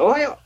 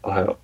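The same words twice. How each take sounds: First: It is said in a bright, lifted voice. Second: It is said in a flat, dull voice.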